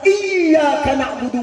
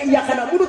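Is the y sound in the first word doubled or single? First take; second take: doubled; single. First: The y sound in the first word is doubled. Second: The y sound in the first word is single. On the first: Only God is worshipped. The speaker calls it right. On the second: Sunlight is worshipped. The speaker calls it wrong. "tidak tasdid, tidak terbaca sedahnya"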